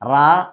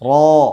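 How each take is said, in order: First: The syllable is light with an open mouth. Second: The syllable is heavy with a rounded mouth. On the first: The speaker calls it wrong. "ഈ ഓപ്പൺ ആക്കി ഓതാതെ" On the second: The speaker calls it right. "ഘനപ്പിച്ചുകൊണ്ട്"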